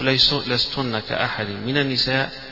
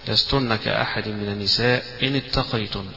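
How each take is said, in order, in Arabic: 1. الوقف يأتي بعد 'an-nisa'، قبل 'in ittaqaytunna'. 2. الوقف يأتي بعد الكلمة الأخيرة 'ittaqaytunna'. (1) "ويجوز الوقف لستن كأحد من النساء ويبدأ" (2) "يجوز الوقف هنا"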